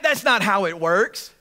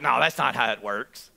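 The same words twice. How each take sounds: First: Said in the usual way. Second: Very low grumbled disagreement; muttered objection. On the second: Acted. Woman objecting to the centurion's story, low muttered aside. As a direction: grumble it low, under your breath.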